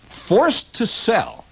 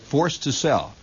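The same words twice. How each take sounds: First: High, drawn-out proclamation; dramatic sign reading. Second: Said in the usual way. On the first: Acted. Reading a shop window sign aloud, slow and high with mock drama. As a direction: stretch the words out slowly, pitched up high.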